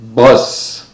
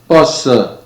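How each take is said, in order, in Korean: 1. 영어 발음으로 말합니다. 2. 한국어 외래어 발음으로 말합니다. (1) "처음에는 제가 쓰는 발음으로" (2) "그 다음에는 한국에서 보통 사용하는 발음으로"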